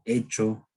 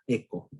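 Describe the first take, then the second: First: The middle consonant is a 'ch' sound. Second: The middle consonant is a 'k' sound. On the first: "podría pronunciarse como hecho" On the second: "la H muda haciendo referencia al inglés"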